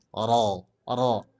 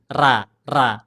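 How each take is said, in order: First: "ro" tebal, pangkal lidah dinaikkan; heavy ro. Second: "ra" tipis, pangkal lidah tidak dinaikkan; flat ra. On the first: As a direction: ucapkan "ro" dengan pangkal lidah naik. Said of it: "Kalau dinaikkan". (ro tebal dengan tafkhim) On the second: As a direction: ucapkan "ra" tanpa menaikkan pangkal lidah. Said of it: "kalau tidak dinaikkan gini". (ra tipis tanpa tafkhim) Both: Shown as a demonstration.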